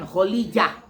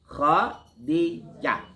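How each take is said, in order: First: The name is said with an l and j. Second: The name is said with a d and j. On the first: The speaker calls it wrong. "Ini banyak orang bacanya Kholijah. Bukan. Salah itu" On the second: The speaker calls it right. "Tapi Khadijah"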